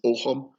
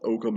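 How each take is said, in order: First: The word is said with a Gaelic pronunciation. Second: The word is said with an English pronunciation. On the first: The speaker calls it right. "if you pronounce it in Gaelic, it's Ogham" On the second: The speaker calls it wrong. "it's not Ogham"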